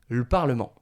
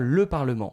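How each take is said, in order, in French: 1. La voyelle de 'le' est supprimée. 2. La voyelle de 'le' est entièrement prononcée. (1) "Donc on va manger le E" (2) "On va vraiment prononcer normalement le, le son E"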